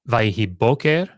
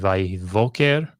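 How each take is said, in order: First: The second word begins with a hard b sound. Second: The second word begins with a soft v sound. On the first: "I would have expected this bait to be spirantized" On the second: "So I would have expected, as we see in Genesis one"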